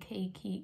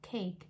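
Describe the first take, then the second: First: An extra vowel is added after the final k. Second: The word ends cleanly on the k sound. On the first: The speaker calls it wrong. "you don't say cakey" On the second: The speaker calls it right. "it's just cake"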